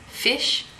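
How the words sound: It is said in an Australian accent.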